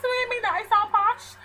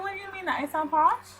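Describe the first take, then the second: First: High-pitched, overdone indignant question; exaggerated retort. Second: "posh" said properly, in careful standard English; raised pitch, proper diction on "sound posh"; speaking properly. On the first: Retelling a reply to a coworker, exaggerated retort. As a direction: play up the offence, voice pitched up. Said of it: "obviously, I didn't say it like that". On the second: Retold or imitated. Retelling the reply to a coworker, speaking properly, "posh" neatly said.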